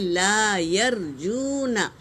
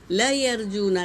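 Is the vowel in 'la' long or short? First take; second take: long; short. First: The vowel in 'la' is firmly drawn out. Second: The vowel in 'la' is short and clipped. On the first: The speaker calls it right. "पुख्तगी से ला पढ़ेंगे" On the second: The speaker calls it wrong. "नहीं पढ़ेंगे"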